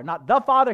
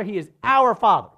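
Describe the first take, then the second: First: "the" set up loudly for contrast; stress on "the". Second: "our" hit loudly as the correction; stress on "our". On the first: Preacher correcting a word, stressing "the". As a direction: lean on "the" as the wrong word. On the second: Preacher correcting a word, stressing "our". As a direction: punch "our" against the rejected word. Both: Shown as a demonstration. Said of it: "I want to stress on our".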